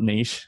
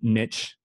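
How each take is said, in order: First: It is said with a non-American pronunciation. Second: It is said with an American pronunciation.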